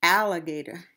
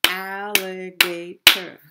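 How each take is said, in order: First: Said in the usual way. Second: Alligator in four loud beats, al-li-ga-tor; syllable by syllable. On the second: Shown as a demonstration. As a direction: punch out each syllable of alligator. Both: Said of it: "we have four syllable word".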